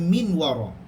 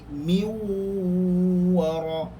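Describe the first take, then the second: First: The n is clearly pronounced before the w. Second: The n merges into the following w sound. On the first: The speaker calls it wrong. "biasanya kita tidak akan baca min wara" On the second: The speaker calls it right. "Dia tak bunyi dah nun, tapi kena dengar"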